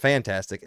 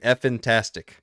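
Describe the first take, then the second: First: The name begins with a 'fan' syllable. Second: The name begins with an 'eff' syllable. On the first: The speaker calls it wrong. "not fantastic" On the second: The speaker calls it right. "that's their name. Effin-tastic"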